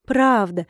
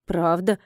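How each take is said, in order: First: "Правда" said as a falling statement; smiling confirmation. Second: "Правда?" low with a rising end; questioning. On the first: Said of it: "улыбнулась я". (утвердительно, с улыбкой: «Правда») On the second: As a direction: ask "Правда?" as a doubtful check. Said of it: "уточнила женщина". (вопросительно, с подъёмом на «Правда?») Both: A narrator's reading.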